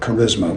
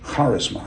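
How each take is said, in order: First: The word is pronounced as in English. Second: The word is pronounced as in Greek. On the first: "or charisma, we have in English" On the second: "What is the basic word in Greek for spiritual gift?"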